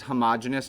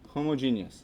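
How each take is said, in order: First: The word avoids a clear 'homo' sound at the start. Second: The word keeps a clear 'homo' sound at the start. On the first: It avoids the association with sexuality. The speaker calls it wrong. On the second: It keeps the root meaning 'same'. The speaker calls it right.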